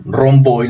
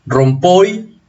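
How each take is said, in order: First: "rompoy" with the p voiced to a b, like romboy; other regional variant. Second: "Rompoy" with a p sound, rising at the end; first regional variant. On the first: Teacher giving another region's colloquial form, "rompoy" said with a b. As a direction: say "rompoy" as rom-BOY, with a b sound. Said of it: "en otras regiones prefieren decir". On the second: Teacher presenting a colloquial word from English, "Rompoy" said with a p. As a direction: say "Rompoy" with a clear p after the m. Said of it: "o en otras regiones prefieren decir". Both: Shown as a demonstration.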